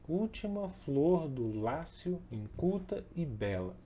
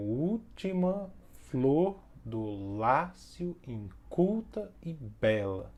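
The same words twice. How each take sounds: First: "última flor do Lácio, inculta e bela" recited slowly in one flowing line with even beats; "última flor do Lácio, inculta e bela" as measured verse, stresses evenly spaced; flowing rhythmic stress. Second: "última flor do Lácio, inculta e bela" very slow, stretching U, FLOR, LÁ, CUL, BE; "última flor do Lácio, inculta e bela" scanned slowly, pausing on each strong beat; exaggerated rhythmic stress. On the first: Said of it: "tem basicamente aí uma proximidade entre". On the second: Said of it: "tem a demarcação prontinha já do ritmo". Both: Shown as a demonstration.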